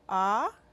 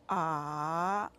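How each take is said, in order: First: The pitch rises throughout. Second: The pitch falls and then rises. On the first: "Go up" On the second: "Go down and up"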